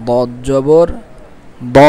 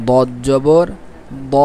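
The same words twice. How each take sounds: The two takes are said the same way.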